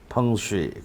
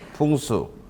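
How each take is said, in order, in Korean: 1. 중국어 'fengshui'로 말합니다. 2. 한국어 'pungsu'로 말합니다. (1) "풍수의 중국어 발음인 어, 펑쉬" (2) "우리는 풍수라고 하지만"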